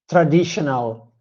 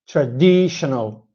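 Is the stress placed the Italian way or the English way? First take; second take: Italian way; English way. First: The stress falls where an Italian speaker puts it. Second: The stress falls where a native English speaker puts it. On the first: The speaker calls it wrong. "as Italian, I used to say traditional" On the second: The speaker calls it right. "it's totally different compared to traditional"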